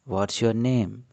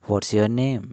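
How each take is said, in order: Both takes have the same delivery.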